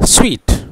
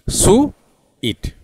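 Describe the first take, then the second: First: The word is said as one syllable. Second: The word is split into two syllables. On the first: The speaker calls it right. "उसको बोलना चाहिए स्वीट" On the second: The speaker calls it wrong. "किसा बोलते हैं India में? ... दो सिलाबल है India में"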